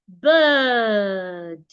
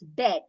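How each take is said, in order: First: The vowel is a long, relaxed 'er' sound. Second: The vowel is short, like in 'bed'. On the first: The speaker calls it right. "The right pronunciation is bird" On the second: The speaker calls it wrong. "B I R D is wrongly pronounced when you pronounce it as bed"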